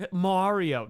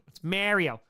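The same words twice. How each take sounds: First: Mario with open broad a, New York style. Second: Mario said with a short e sound, meh-rio; proper Mario. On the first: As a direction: say Mario like a New Yorker, wide ah. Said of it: "No, we don't". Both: Shown as a demonstration.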